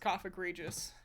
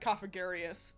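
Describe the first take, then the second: First: The middle syllable is said as 'grig'. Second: The middle syllable is said as 'gar'. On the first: The speaker calls it right. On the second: The speaker calls it wrong.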